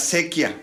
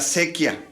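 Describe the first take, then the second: First: The opening a is dropped, sounding like sequia. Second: The opening a is dropped, sounding like sequia.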